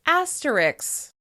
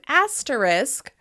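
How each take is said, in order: First: The word ends with a 'ks' sound. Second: The word ends with an 'sk' sound.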